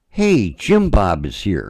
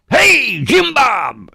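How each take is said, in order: First: It is said at a calm, normal volume. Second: It is screamed very loudly.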